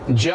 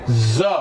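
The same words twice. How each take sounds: First: The consonant is a plain 'j' sound. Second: The consonant is a buzzing 'z' sound. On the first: "ज नहीं रहेगा ये।" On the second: "अब हम इसको बोलेंगे ज"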